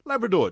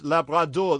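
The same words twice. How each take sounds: First: Said in the usual way. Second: "Labrador" said the French way, slowly sounded out; French pronunciation. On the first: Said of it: "translates from the French as Labrador". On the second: Shown as a demonstration. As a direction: give "Labrador" a French pronunciation, each syllable separate. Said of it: "translates from the French as".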